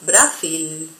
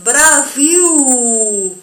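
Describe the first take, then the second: First: The final L is a clear L sound. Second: The final L sounds like a U vowel. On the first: The speaker calls it wrong. "y no Brasil" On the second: The speaker calls it right. "en portugués se va a pronunciar como nuestra letra U. Por eso es Brasil"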